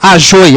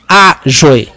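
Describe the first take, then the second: First: The stress is on the last syllable. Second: The stress is on the first syllable. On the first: The speaker calls it wrong. "eu não leio ajoi" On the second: The speaker calls it right. "eu leio ajoi"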